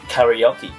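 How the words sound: It is said with a foreign, non-Japanese pronunciation. The speaker calls it wrong. "A lot of people from overseas they call it karaoke"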